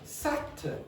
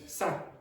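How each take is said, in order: First: The final t is kept, with an added vowel. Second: The final t is dropped entirely. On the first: The speaker calls it right. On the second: The speaker calls it wrong.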